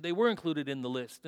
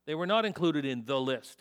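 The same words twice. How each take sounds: First: "were" stressed and held. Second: "not" stressed with a falling tune. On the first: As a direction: lean on "were" in "they were included". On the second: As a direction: lean on "not" in "They were not included". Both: Shown as a demonstration.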